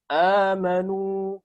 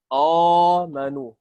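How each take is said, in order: First: The first vowel sounds thin and light. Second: The first vowel sounds thick and heavy. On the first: The speaker calls it right. "tapi amanu" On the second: The speaker calls it wrong. "bukan amanu"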